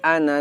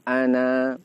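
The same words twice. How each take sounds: First: The final vowel is short, running on. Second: The final vowel is long, then stops. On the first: The reading continues without stopping. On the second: The reader stops at this word.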